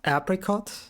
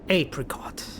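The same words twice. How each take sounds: First: The first syllable does not sound like ape. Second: The first syllable sounds like the word ape. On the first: The speaker calls it wrong. "not apricot" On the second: The speaker calls it right. "It said like ape"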